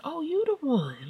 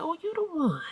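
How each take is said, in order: First: High drawn-out "Oh, you the one" with a falling end; mock sing-song greeting. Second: High, falling "Oh, you the one"; sweetly mocking repeat; mock sing-song greeting. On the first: Mom greets the eye-rolling girl in a slow, high mock-sweet tone. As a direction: sing the line slowly and sweetly, mock friendly. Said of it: "like that". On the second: Mom repeats a high teasing greeting to the rude girl. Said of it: "I said".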